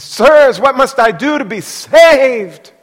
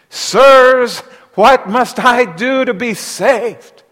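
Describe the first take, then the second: First: High, loud pleading cry; desperate jailer. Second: Pleading cry, high and loud, slow; desperate jailer. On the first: Jailer begs Paul and Silas, loud high plea. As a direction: beg them like a man undone. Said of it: "He says". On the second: Trembling jailer begs Paul and Silas, loud plea. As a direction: beg them like a frightened man. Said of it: "he said to them". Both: Acted.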